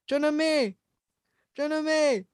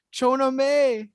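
First: Put-on high Bisaya-accented calling of the name. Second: Shouted name, pitched up high; retold scream of a name. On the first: Panicked Bisaya man calling for his girlfriend, Bisaya accent. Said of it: "in a Bisaya accent". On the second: Frantic man shouting for his girlfriend after the quake. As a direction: yell the name across a panicked crowd. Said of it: "he's just screaming".

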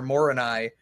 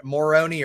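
First: "Moroni" ending in a nigh sound; alternative pronunciation of Moroni. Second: "Moroni" ending in a nee sound; alternative pronunciation of Moroni. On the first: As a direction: say "Moroni" with the last syllable rhyming with eye. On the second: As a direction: say "Moroni" with the last syllable as nee. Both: Shown as a demonstration. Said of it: "Moroni or Moroni".

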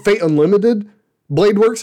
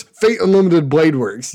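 First: "Fate Unlimited, Blade Works" as a question, rising higher; unsure guess. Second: "Fate Unlimited Blade Works" as a settled statement, dropping on "Works"; confirming. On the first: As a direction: offer "Fate Unlimited, Blade Works" tentatively, lifting "Works" at the end. Guessing at a forgotten title. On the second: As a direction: land "Blade Works" as the answer found. Confirms the title just recalled. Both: Real, not acted.

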